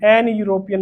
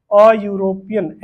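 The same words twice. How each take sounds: First: Said in the usual way. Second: अ European, slow, with a stretched अ; a not an. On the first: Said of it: "नहीं होगा". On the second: Shown as a demonstration. Teacher drilling the class on the article, slow and deliberate. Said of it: "एन European नहीं होगा".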